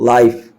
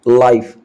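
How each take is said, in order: Both takes have the same delivery.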